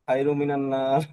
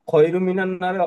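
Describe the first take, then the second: First: The first word begins with a soft h sound. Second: The first word begins with a harsh kh sound. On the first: The speaker calls it wrong. "হ উচ্চারণ করে" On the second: The speaker calls it right. "খ উচ্চারণ করতে পারে না"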